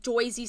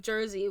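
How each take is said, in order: First: "Jersey" said as "JOY-zee"; old-school New York-style "Jersey", like "Joisey"; classic Jersey pronunciation. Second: Said in the usual way. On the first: Shown as a demonstration. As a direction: put an oy sound in the first syllable of "Jersey". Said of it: "the classically, like, Jersey side of Jersey". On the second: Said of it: "Jersey side of Jersey, which is".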